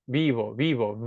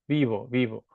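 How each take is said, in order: No difference in how they are said.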